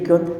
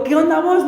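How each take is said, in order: First: Lower, smaller and deflated; sheepish greeting. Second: Rough street greeting. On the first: Pastor repeating his slang greeting, deflated. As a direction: say it caught out, shrinking. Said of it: "Y yo ya era pastor". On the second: Young pastor greeting the pastor's son, rough and careless. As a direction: toss it off like a street kid. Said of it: "tenía que cambiar mi forma de hablar". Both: Retold or imitated.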